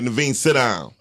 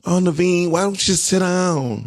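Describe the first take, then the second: First: Firm, direct command; imitated firm principal. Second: Higher, pleading mock-gentle request; mock soft-touch coaxing. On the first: Principal telling the daughter to behave, imitated firm voice. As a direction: give a short order that falls firmly at the end. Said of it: "her principal voice sound like mine". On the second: How the principal would not address the daughter, mock coaxing. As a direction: coax a child far too politely, imitating leniency. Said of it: "He didn't go".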